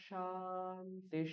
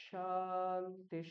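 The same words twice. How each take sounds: No difference in how they are said.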